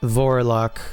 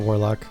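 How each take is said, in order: First: The name begins with a V sound. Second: The name begins with a W sound. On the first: "it's very German" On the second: "Still with the W"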